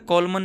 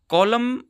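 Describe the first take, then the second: First: The final n sound is pronounced. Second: The final n sound is silent. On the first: The speaker calls it wrong. "कॉलमन नहीं बोला जाता" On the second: The speaker calls it right. "कॉलम बोला जाता है"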